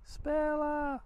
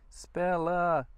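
First: Second call, pitched well up; calling out higher. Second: Calling out. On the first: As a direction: call the dog again, higher and longer. Calls dog again higher. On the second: Calling the dog. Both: Real, not acted.

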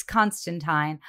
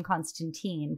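First: Constantine said slowly, the British comics way, ending in "tine"; Constantine drawn out, rhyming with "line"; Constantine the way the Brits said it; comics pronunciation. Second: Constantine said the film and TV way; Constantine as the movies say it, ending in "teen"; Constantine with the American screen ending; TV pronunciation. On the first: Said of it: "But in my head, he's Constantine". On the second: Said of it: "they started to call him Constantine". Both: Shown as a demonstration.

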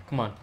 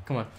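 No difference in how they are said.

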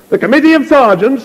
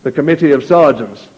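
First: Much higher, louder angry echo; raised voice. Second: Said in the usual way. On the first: Acted. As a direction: fling it into the wind. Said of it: "he raised his voice". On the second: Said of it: "still in the same tone".

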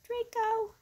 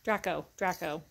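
First: Draco said as DRAY-co, high; pronunciation. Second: Draco said as DRACK-o, lower; pronunciation. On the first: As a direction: Draco with a long A, like tray. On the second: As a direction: Draco with a short A, like track. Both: Shown as a demonstration. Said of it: "I was told it's pronounced Draco".

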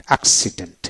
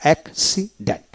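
First: Said in the usual way. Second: accident broken as অ্যাক-সি-ডেন্ট; teacher's split-up model of accident, gaps between parts; syllable by syllable. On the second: Shown as a demonstration. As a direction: read accident in three separate syllables. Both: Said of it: "এইভাবে".

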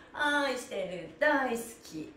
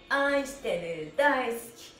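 Both takes have the same delivery.

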